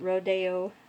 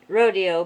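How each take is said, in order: First: The word is pronounced in a posh way. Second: The word is pronounced plainly, as it looks. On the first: "but the posh, it's Rodeo" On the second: "It's spelt ro rodeo"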